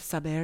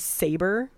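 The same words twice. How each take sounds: First: It is said with a Spanish accent. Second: It is said with a plain English accent. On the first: "it sounds more romantic. This is my bad Spanish accent" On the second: "I guess it could be Saber"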